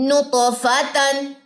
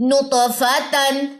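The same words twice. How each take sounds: Both takes have the same delivery.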